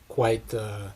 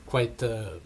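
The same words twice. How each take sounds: The two takes are said the same way.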